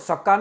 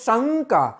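First: The first syllable is said without nasal sound. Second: The first syllable is nasalized and stressed. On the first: The speaker calls it wrong. "ખાલી એમને સક્કા નથી બોલતા" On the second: The speaker calls it right. "શની માથે જો તમે ભાર દઈને બોલો છો"

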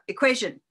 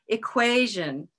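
First: The stressed syllable rises in pitch but stays short. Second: The stressed syllable rises in pitch and gets longer. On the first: The speaker calls it wrong. "This one to me sounds like a robot. And the reason is that only the pitch goes up" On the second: The speaker calls it right. "We can replace it with our hands"

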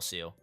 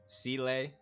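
First: The name sounds like the English word seal. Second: The name does not sound like the word seal. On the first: The speaker calls it wrong. "I know that I'm saying Seal wrong" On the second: The speaker calls it right. "I know it's like Seele or Seele"

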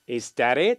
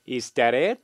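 First: The t is a soft flap, like an L. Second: The same.

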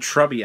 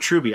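First: The first vowel is short, as in 'tub'. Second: The first vowel is long, as in 'ruby'. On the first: The speaker calls it wrong. "I keep saying Trubby, and I apologize" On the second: The speaker calls it right. "now I know"

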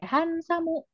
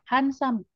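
First: The final u vowel is clearly voiced. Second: The final u vowel is nearly silent. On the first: "misalnya Hansamu" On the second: "itu U-nya tipis aja ngomongnya"

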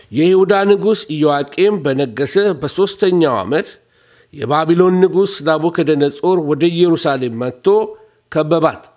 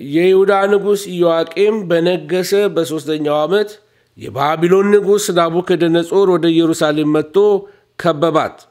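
No difference in how they are said.

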